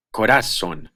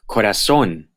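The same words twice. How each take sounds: First: Corazón wrongly said co-RA-zon; misplaced stress. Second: Corazón said co-ra-ZÓN; acute-marked stress. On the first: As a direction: stress the middle syllable of corazón. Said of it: "If they didn't have the acute". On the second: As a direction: stress the last syllable of Corazón. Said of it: "Here are some examples". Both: Shown as a demonstration.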